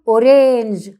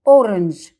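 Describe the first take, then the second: First: A full vowel is said after the r. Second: The vowel after the r is dropped. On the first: The speaker calls it wrong. "ولا قلنا أورانج" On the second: The speaker calls it right. "قلنا أورنج"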